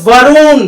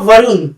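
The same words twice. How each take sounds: First: It is drawn out loudly, like calling someone. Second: It is said short and plain.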